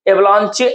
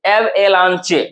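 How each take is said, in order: First: Said in the usual way. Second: "एव एलांचे" in separate pieces; split into parts. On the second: Shown as a demonstration. Teacher dividing a word for students, piece by piece. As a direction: break "एव एलांचे" after the opening एव. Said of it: "तीन part में तोड़े".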